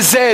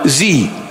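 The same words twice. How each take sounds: First: It is said as 'zed', non-American style. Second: It is said as 'zee', American style.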